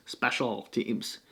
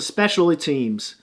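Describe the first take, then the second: First: SPECIAL TEAMS slow and much softer; careful self-correction. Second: Said in the usual way. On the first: Real, not acted. Host fixing his slip of the tongue, slow quiet "Special teams". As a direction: say "Special teams" slowly, low and under the voice.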